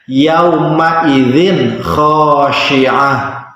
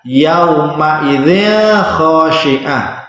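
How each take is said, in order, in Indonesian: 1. Bunyi n sebelum kh dibaca jelas. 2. Bunyi n sebelum kh dibaca samar dan berdengung. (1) "membacanya harus jelas" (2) "Bukan ... karena ini bukan huruf ikhfa"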